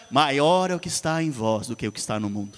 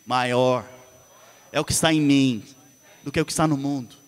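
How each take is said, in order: First: Said in the usual way. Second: Maior, pausa, é o que está em mim, pausa, do que o que está no mundo; frase em pedaços para a igreja repetir; versículo pausado para repetir. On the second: Shown as a demonstration. (versículo recitado em partes, com pausas) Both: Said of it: "Fala assim comigo".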